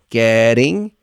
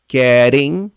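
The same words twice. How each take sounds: Both takes have the same delivery.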